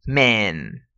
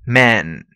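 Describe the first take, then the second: First: MAN said as "men", with an "e"; plural pronunciation. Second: MAN with an open "a", low and falling; singular pronunciation. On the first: Teacher contrasts plural for students, MAN pronounced "men". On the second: Teacher contrasts singular for students, MAN with open "a". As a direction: model MAN with an open vowel, as in Superman. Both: Shown as a demonstration.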